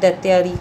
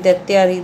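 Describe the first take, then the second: The two takes are said the same way.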